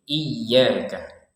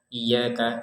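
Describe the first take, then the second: First: The y sound is pressed and doubled. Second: The y sound is light and single. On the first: The speaker calls it right. "ditekan karena ada tasydid" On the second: The speaker calls it wrong. "Jangan sekedar iyyaka ... Kan tidak ada tekanannya"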